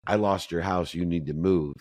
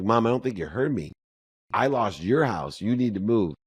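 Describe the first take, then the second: First: Said in the usual way. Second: Higher, firmer second telling; repeating insistently. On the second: Retold or imitated. Son repeating the news to mom, higher and insistent. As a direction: spell it out again for mom.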